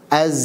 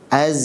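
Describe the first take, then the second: Both takes have the same delivery.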